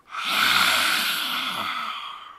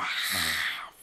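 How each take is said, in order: First: A loud, low, breathy roar through a wide-open mouth; open-mouthed roar breath. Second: A quiet, low breath hissing in the throat, lips closed; soft ujjayi breath. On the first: Yoga teacher shows students the big roar, open-throated roaring exhale. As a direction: let the breath out like a roaring animal, jaw wide. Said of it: "let out a bit of a roar with your mouth quite wide open, like this".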